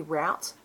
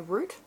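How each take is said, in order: First: Route said to rhyme with out; route, the way most countries say it; route like rout. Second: Route said as root; route, the Australian way. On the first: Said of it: "it's meant to be route". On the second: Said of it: "in Australia we say route". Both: Shown as a demonstration.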